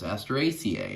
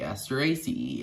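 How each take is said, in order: First: The final syllable ends with an 'ay' sound. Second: The final syllable ends with an 'ee' sound.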